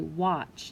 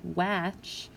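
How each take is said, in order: First: The vowel sounds like a broad ah. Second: The vowel sounds like the a in apple. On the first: The speaker calls it right. "we say watch. So the W is controlling the A to make a different sound there" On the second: The speaker calls it wrong. "the A should say a, like an apple, but we don't say watch"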